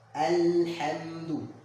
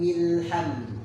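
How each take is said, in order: First: The opening vowel 'a' is clearly pronounced. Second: The opening vowel is dropped, linking to preceding 'm'. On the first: The word starts the recitation. "Ketika kita mengucapkan mulai dari awal" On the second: The word is joined to the previous verse. "ketika misalnya kita wasolkan dengan sebelumnya, maka fathahnya hilang"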